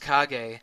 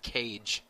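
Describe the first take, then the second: First: The name does not sound like 'cage'. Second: The name sounds like the word 'cage'. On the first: The speaker calls it right. "the main character's name was Kage" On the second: The speaker calls it wrong. "pronouncing the character's name Cage"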